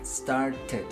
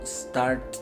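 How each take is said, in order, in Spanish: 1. La terminación es una sílaba separada como ted. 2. La terminación no tiene vocal, solo una consonante final. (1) "esta E sí la pronunciamos" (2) "si yo no pronuncio la E ... se escucha muy forzado"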